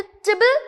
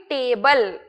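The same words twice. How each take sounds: First: टिबल with a short, weak first vowel; correct ending. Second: टेबल with a long, full "ay" vowel; wrong ending. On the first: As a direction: say टिबल as a quick "tih-bul". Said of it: "आपके pronunciation में आना चाहिए". (टिबल में छोटी "इ" की आवाज़) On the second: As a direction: draw out टेबल slowly as "tay-bul". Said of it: "ना कि टेबल". (टेबल में लंबी "ए", गलत उच्चारण के तौर पर) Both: Shown as a demonstration.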